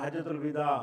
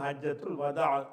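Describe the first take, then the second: First: The last word starts with a 'vi' sound. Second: The last word starts with a 'wa' sound. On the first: The speaker calls it wrong. "பழக்கத்தில் பேச்சிலையெல்லாம் எப்படி சொல்லுவாங்கன்னா" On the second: The speaker calls it right. "வதாங்கிறது ஒரு சரியான சொல்லு"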